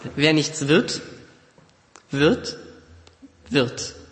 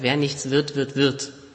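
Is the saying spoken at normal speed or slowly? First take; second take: slowly; normal. First: It is spoken slowly and deliberately. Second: It is spoken at a normal, natural speed.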